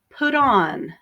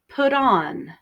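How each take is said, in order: First: The T is softened and links into on. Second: The T is softened and links into on.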